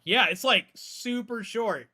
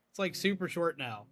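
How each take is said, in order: First: Excited. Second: Said in the usual way. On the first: Real, not acted. Excited reaction, loud high.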